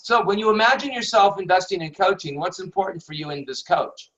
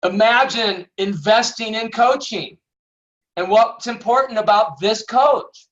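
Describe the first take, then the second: First: Fast, run-together reading with no emphasis; rattled off. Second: "Imagine investing in coaching." said as a firm command, a bit louder and higher; commanding emphasis. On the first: Teacher showing the question read off quickly and flatly. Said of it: "if I just read it all off". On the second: Coach revealing the hidden command to students, with firm emphasis. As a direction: lean on "Imagine" and "coach" like instructions. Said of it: "I'm actually telling the subconscious mind". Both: Shown as a demonstration.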